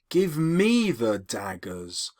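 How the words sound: The stress falls on the word me. "which is why she emphasizes me"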